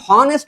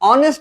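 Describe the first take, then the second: First: The word begins with an h sound. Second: The word begins with a vowel sound. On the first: The speaker calls it wrong. "আমরা এখানে হনেস্ট বলি না" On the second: The speaker calls it right. "অনেস্ট বলি, অর্থাৎ কনসোনেন্টের উচ্চারণটা এখানে হয় না"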